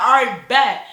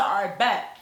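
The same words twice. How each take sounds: First: Loud bet. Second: Said in the usual way. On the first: Retold or imitated. Accepting the challenge, hyped.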